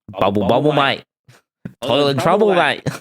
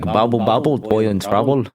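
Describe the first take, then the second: First: It is said in an Australian accent. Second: It is said in a Scottish accent.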